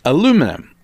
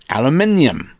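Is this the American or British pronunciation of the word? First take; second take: American; British. First: It is said in the American way. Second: It is said in the British way. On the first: "But in America, it's aluminum" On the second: "In England, we used to call it aluminium"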